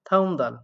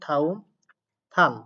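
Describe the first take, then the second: First: The words run together; 'dal' starts with d. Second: A pause splits the words; 'dal' starts with t. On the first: "একসাথে পড়ি সেক্ষেত্রে দ্বিগুটাকে দ দিয়ে পড়তে হবে।" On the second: "দুই টা সুন্দর মাঝে একটা স্পেস দিয়ে কথা বললাম। ... দ্বিগুটাকে থ দিয়ে পড়লাম।"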